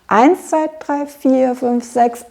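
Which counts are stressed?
eins. Only eins is stressed; the rest flow on. The speaker calls it right. "wir betonen eigentlich nur den ersten von diesen beiden Dreiertakten"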